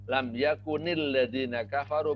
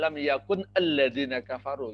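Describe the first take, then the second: First: The words are joined by a linking i vowel. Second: The words are said separately without linking. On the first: "Kalau disambung" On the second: "Itu sebenarnya"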